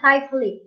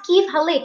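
First: The first word has an 'eye' vowel. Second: The first word has a short 'ee' vowel. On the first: The speaker calls it wrong. "not kaif halik" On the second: The speaker calls it right. "it's kif halik"

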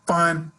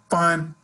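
First: The word sounds upbeat and sincere. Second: The word sounds upbeat and sincere.

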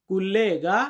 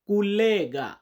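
Both takes have the same delivery.

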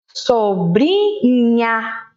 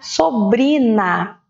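First: The final syllable has a palatal nh sound. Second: The final syllable has a plain n sound. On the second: "Se eu não tiver o H, fica sobrina"

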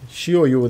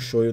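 First: The name ends with a 'u' vowel. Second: The name ends with an 'o' vowel. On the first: The speaker calls it right. "Shoyu, né, no caso" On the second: The speaker calls it wrong. "Eu chamo de Shoyo. Acho mais legal. Falar errado"

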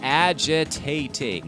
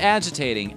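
First: Every syllable of the word is emphasized. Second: The word is said with normal, unmarked stress. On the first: The speaker calls it right. "You have to put emphasis on every single syllable" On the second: The speaker calls it wrong. "Not agitating"

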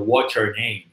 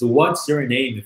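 First: The words blend together with reduced sounds. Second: Each word is pronounced fully and separately.

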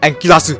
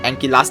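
First: Japanese-style pronunciation with extra vowel sounds added. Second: Plain English-style pronunciation without added vowels.

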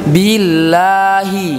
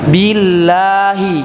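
Both takes have the same delivery.

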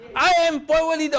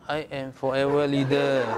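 First: It is said forcefully, with strong energy. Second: It is said flatly, with little energy. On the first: The speaker sounds like a leader. The speaker calls it right. "Leader must be, right? Yes" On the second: The speaker does not sound like a leader. The speaker calls it wrong. "not like this. ... I don't feel there's a leader"

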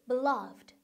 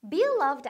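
First: The stress is on the second syllable. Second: The stress is on the first syllable. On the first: The speaker calls it right. "이음절에 강세가 있어요" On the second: The speaker calls it wrong. "beloved 아니고"

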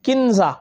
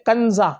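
First: The first vowel is a short 'i'. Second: The first vowel is a short 'a'. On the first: The speaker calls it wrong. "गलत तलफ़ुज़ के साथ है" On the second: The speaker calls it right. "इसका जो सही तलफ़ुज़ है वो है कंज़ा"

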